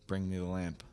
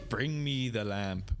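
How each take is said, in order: First: The line is delivered flatly, sounding bored. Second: The line is delivered dramatically, with energy. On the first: This is how the actor actually sounds. The speaker calls it wrong. "He says it like" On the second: This is how the villain should sound. The speaker calls it right. "but he doesn't say it that way"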